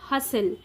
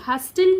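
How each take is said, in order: First: No t sound is pronounced in the middle. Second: A t sound is pronounced in the middle. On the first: The speaker calls it right. "टी silent है" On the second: The speaker calls it wrong. "हस्टल नहीं"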